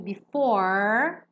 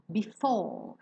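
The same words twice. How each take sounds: First: The final R is strongly curled and pronounced. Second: The final R is dropped and the vowel lengthened. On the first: "que é um R bem marcado da pronúncia americana, R enrolado" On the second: "soam um pouco como o R britânico... É como se fosse um alongamento da vogal anterior"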